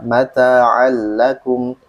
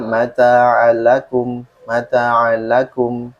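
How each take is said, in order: First: MATA'AL LAKUM slow, with the L held and doubled; L doppia. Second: MATA'AL LAKUM with a shorter, single L; L semplice. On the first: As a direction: lean on the double L before AKUM. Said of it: "Harusnya kan dua lam ya". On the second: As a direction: recite slowly but pass lightly over the L. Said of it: "dibandingin dengan". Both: Shown as a demonstration.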